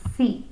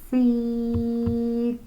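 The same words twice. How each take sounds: First: The word is said quickly as one unit. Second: The word is stretched out sound by sound. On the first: "Say it fast" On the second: "Sound it out with me"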